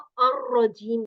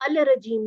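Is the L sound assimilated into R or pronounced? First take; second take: assimilated; pronounced. First: The L merges into a doubled R sound. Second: The L is pronounced separately before R. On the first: The speaker calls it right. "तशदीद की वजह से हमने इसको अर्रजीम कहना है" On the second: The speaker calls it wrong. "अल रजीम नहीं कहना"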